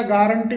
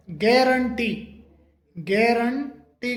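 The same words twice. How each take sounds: First: गारंटी said the usual Indian way, with a plain "gaa"; the everyday गारंटी before the correction; common wrong way. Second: गारंटी said slowly and carefully, with an open "ge" like "gae-ran-tee"; correct pronunciation. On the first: Teacher shows students the usual गारंटी, said plainly. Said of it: "जबकि इसका सही जो pronunciation होता है". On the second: Teacher models the correct गारंटी for students, slow and careful. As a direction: stretch out गारंटी with a "gae" start. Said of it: "इसका सही जो pronunciation होता है वो". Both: Shown as a demonstration.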